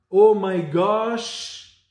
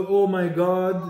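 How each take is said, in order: First: Oh my gosh said slowly, gosh replacing God; a drawn-out Oh my gosh; wrong word. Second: Said in the usual way. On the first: Shown as a demonstration. Teacher slowly showing children the wrong form, Oh my gosh. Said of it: "Il ne dit pas". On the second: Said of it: "au lieu de".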